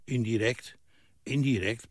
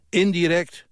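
First: Softer, subdued grumble; grumbling mutter. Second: "Indirect" higher and louder, as an outburst; exclaimed INDIRECT. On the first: Old man chewing over the word, muttering softly. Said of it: "pruttelde hij". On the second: Man pouncing on the word, "Indirect" exclaimed high. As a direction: throw out "Indirect" raised and forceful. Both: A narrator's reading.

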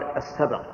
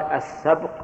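First: السبق with an "a" after ب, as "as-sabaq"; fatha on ب. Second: السبق with a silent ب, as "as-sabq"; sukun on ب. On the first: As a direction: open the ب in السبق into two syllables, "sa-baq". (السبق بفتح الباء) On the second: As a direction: say السبق as one closed syllable "sabq" after the article. (السبق بتسكين الباء) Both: Shown as a demonstration. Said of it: "أما السبق بالفتح".

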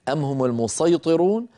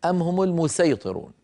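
First: "المسيطرون" with a heavy emphatic ṣ; ṣād reading. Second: "المسيطرون" with a light, plain s; thin the ṣ in "المسيطرون" to an s; sīn reading. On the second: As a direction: say "المسيطرون" as al-musayṭirūn, s not ṣ. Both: Shown as a demonstration. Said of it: "نقرأها بالوجهين".

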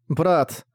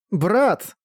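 First: Dazed murmur to a brother; stunned mutter. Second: Put-on higher-pitched angry child's call. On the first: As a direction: mutter it, taken aback, energy gone. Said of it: "ошарашенно пробормотал Саски". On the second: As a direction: call out crossly for a missing brother. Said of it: "сердито позвал Саски". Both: A narrator's reading.

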